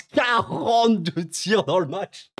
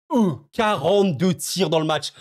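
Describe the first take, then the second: First: "Quarante-deux tirs" stretched out slowly and a bit higher; slow disbelief. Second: Said in the usual way. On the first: Shown as a demonstration. Stat répétée pour insister. (lent, incrédule, sur "Quarante-deux")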